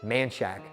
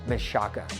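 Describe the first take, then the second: First: The name is said the local Austin way. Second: The name is said the standard way. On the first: "people here pronounce it" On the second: "We have a street here called"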